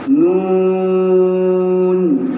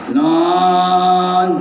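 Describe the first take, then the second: First: The word is said with the sound through the nose. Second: The word is said through the mouth only. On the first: The speaker calls it right. "maksudnya suara itu keluar daripada hidung" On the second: The speaker calls it wrong. "tidak boleh kita gunakan suara mulut semata-mata"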